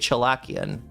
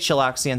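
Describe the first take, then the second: First: The middle has a plain 'k' sound, no 's'. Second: The middle sounds like 'chillax', with a 'ks'. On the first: The speaker calls it right. "say Chilakian" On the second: The speaker calls it wrong. "don't say Chilaxian"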